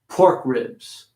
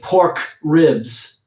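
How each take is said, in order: First: The K is small, linking into the next word. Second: The K is fully released, with a gap. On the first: The speaker calls it right. "make that K a little smaller" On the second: The speaker calls it wrong. "I didn't say pork ribs"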